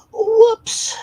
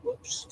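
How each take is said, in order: First: Whoops squealed very high and loud; squeaky whoops. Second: Said in the usual way. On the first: Real, not acted. Streamer slipping up, squealing Whoops high and loud.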